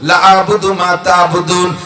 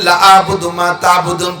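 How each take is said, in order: First: The vowel in 'la' is drawn out long. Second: The vowel in 'la' is cut short. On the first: I will never worship what you worship. The speaker calls it right. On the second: I will surely worship what you worship. The speaker calls it wrong.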